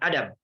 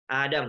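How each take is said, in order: First: The first A vowel is said short. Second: The first A vowel is held long. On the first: The speaker calls it wrong. "bukan Adam" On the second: The speaker calls it right. "panjang A-nya"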